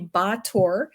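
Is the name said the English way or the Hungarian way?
Hungarian. The name is said without a final 'ee' sound. This is the name's real native form. "it's actually Bator. They don't pronounce the Y"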